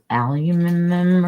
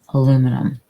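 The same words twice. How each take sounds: First: It is said the British way, with five syllables. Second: It is said the American way, with four syllables. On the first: "in Great Britain they don't say aluminum, they say alum, al- aluminum or something" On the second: "But it's aluminum"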